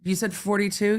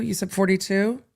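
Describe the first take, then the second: First: Mock disbelief. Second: Incredulous. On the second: Retold or imitated. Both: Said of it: "the jury just went".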